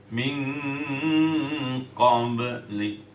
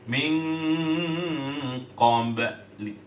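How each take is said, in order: Both takes have the same delivery.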